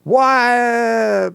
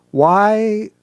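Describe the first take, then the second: First: "Why" high, long and exclaimed; drawn-out, protesting "Why"; stating why. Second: "Why" lifted high as an open question; rising, inquiring "Why"; asking why. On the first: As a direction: declare "Why" with an exclamation point. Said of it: "and stating". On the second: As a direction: ask "Why" with a question mark. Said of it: "difference between asking". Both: Shown as a demonstration.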